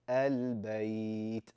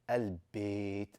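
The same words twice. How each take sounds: First: The vowel opens wide, then glides toward 'y'. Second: The vowel is a flat, closed 'ee' sound. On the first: The speaker calls it right. "open your mouth, ah, ah, and then you're going to lean into the ya" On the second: The speaker calls it wrong. "No, N not like that"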